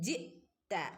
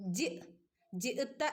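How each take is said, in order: First: The hamza is held lightly with a half stop. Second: The hamza is broken off with a sharp stop. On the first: The speaker calls it right. "ഹംസക്ക് ഹാഫ് സുക്കൂനാണ്" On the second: The speaker calls it wrong. "ജി ജിഅത എന്ന് ഓതരുത്"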